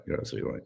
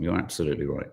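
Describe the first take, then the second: First: Breathy whispered aside, much softer; a hushed stage whisper of agreement. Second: Said in the usual way. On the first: Shown as a demonstration. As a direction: drop to a secret whisper. Repeating the same words whispered.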